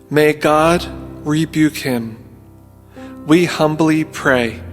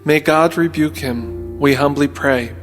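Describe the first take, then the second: First: It is spoken slowly and deliberately. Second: It is spoken at a normal pace.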